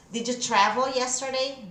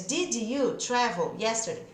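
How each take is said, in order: First: "Did you" run together as "didja", in a fluent question; linked DID YOU. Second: "did you" as two separate full words; word-by-word "did you", no joining; separated DID YOU. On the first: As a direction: blend "Did you" into one smooth "didja". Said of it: "Já pode juntar". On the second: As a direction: give "did" and "you" each its own full sound. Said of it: "Ao invés de". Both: Shown as a demonstration.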